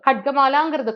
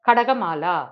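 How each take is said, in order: First: The first two consonants are said together without a vowel. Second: An extra vowel separates the first two consonants. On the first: The speaker calls it right. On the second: The speaker calls it wrong.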